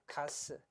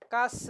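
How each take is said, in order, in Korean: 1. 첫 자음은 평음이에요. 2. 첫 자음은 경음이에요.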